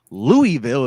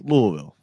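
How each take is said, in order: First: The name is said with an outsider's pronunciation. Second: The name is said with a local pronunciation. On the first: The speaker calls it wrong. "it's not Louisville" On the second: The speaker calls it right. "if you're in Kentucky"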